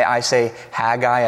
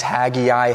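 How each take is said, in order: First: Haggai as HAG-eye, two syllables; preferred pronunciation. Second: Haggai as HAG-ee-eye, three syllables; alternate pronunciation. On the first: Pastor giving his own way to say Haggai. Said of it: "that's the proper way to say it". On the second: Pastor showing another way to say Haggai. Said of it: "you could say it a couple of different ways". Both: Shown as a demonstration.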